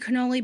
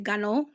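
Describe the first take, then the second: First: Cannoli is said in the Americanized way. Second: Cannoli is said in the Italian-American way. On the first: "I say cannoli" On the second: "That's a little bit too Italian for my liking"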